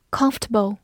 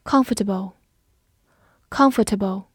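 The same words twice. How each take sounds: First: Comfortable reduced to three syllables, "COMF-tuh-bul"; alternative pronunciation. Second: Said in the usual way. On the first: Shown as a demonstration. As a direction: drop the middle vowel in comfortable. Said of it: "或者读作". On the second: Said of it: "或者读作comfortable".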